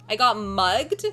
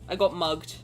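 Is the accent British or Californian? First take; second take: Californian; British. First: It is spoken in a Californian accent. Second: It is spoken in a British accent. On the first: "If you say it in a Cali girl accent, it sounds more American" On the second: "in British for mugged"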